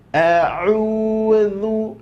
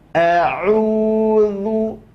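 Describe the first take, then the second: First: The middle consonant is a 'th' sound between teeth. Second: The middle consonant is a 'th' sound between teeth.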